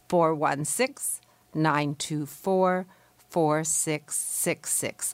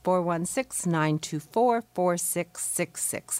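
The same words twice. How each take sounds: First: The number is said slowly. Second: The number is said at normal speed.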